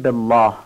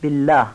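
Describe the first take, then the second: First: بالله with a thick, dark double L; heavy, wrong لام. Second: بالله with a light, clear double L; thin, correct لام. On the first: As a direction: thicken the ل of بالله as in الله alone. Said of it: "اینجا درشت گفته نمیشه". (بالله با لام درشت، به شکل نادرست) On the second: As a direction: keep the ل of بالله thin after the kasra. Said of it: "نمیگیم بالله". (بالله با لام نازک) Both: Shown as a demonstration.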